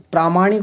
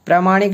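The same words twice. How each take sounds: First: प्रामाणिक as "praa-maanik"; प्रामाणिक with an open long "praa"; correct long A. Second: प्रामाणिक as "pra-maanik"; प्रामाणिक with a short "pra"; wrong short A. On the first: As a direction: lengthen the first vowel of प्रामाणिक. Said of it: "प्रामाणिक होता है". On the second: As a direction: keep the first vowel short in प्रामाणिक. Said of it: "प्रामाणिक नहीं होता है". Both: Shown as a demonstration.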